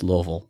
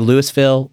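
First: The syllables are mumbled, as if mouth holds water. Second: The syllables are pronounced fully and clearly. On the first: The speaker calls it right. "It's Louisville" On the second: The speaker calls it wrong. "People say Louisville"

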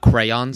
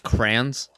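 First: The word is said as two syllables, cray-ons. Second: The word is said as one syllable, like crans. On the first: "Not crayons" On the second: "I also say crayons, C-R-A-N-S"

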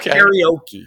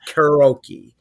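First: An ee sound comes between r and o. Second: No ee sound comes between r and o. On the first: The speaker calls it wrong. "Not karaoke. But everyone else says karaoke" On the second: The speaker calls it right. "You cannot show me where there's an E between the R and the O. It's karaoke"

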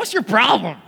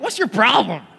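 First: It is said in a salty, snappy tone. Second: The same.

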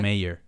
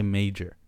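First: The word has no 'j' sound in the middle. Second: The word has a 'j' sound in the middle. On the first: The speaker calls it right. "Instead of mayor" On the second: The speaker calls it wrong. "my accent slipping up? I say major"

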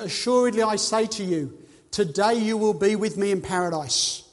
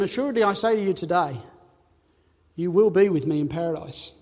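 First: The pause comes before the word today. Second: The pause comes after the word today.

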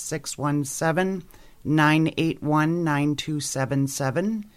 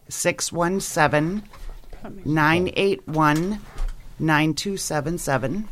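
First: The number is said at normal speed. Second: The number is said slowly.

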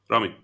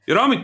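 First: The name is said in a calm, quiet voice. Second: The name is said in an angry, loud voice. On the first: The child is now in real trouble. "at the point where he no longer sounded angry" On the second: The father is openly annoyed. "he would get angry and you would hear it"

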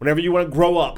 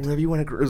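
First: The line is yelled loudly and angrily. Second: The line is said softly and nicely. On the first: The speaker is furious and dismissive. "And he yelled that" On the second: The speaker is gentle and kind. "It wasn't like a soft, nice"

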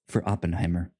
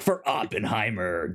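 First: It is said flatly and clinically. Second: It is said loudly and dramatically. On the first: The speaker calls it right. "That's a sans serif voice" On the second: The speaker calls it wrong. "You say it like it's a metal band"

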